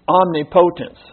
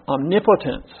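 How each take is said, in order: First: The word is sounded out as it is spelled. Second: The word is said in its usual pronunciation. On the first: The speaker calls it wrong. "This looks like it says omnipotence" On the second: The speaker calls it right. "but it's pronounced omnipotence"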